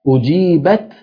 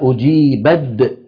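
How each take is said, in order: First: The word ends with a t sound. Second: The final t is changed into a d sound. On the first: "يعني التاء شو صار فيها؟" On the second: "تحولت إلى دال"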